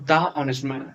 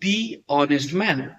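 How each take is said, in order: First: 'The' is said with a short 'thuh' vowel. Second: 'The' is said with a long 'thee' vowel. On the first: The speaker calls it wrong. "Not দা honest man" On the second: The speaker calls it right. "এখানে হচ্ছে দি honest man"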